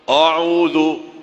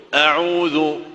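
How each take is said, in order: No difference in how they are said.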